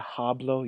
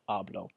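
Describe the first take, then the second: First: The h at the start is pronounced. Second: The h at the start is silent. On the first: The speaker calls it wrong. "you don't say hablo" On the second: The speaker calls it right. "H is always silent no matter what"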